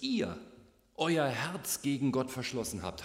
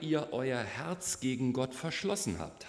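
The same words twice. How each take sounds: First: The word 'ihr' carries strong stress. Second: The word 'ihr' carries no special stress.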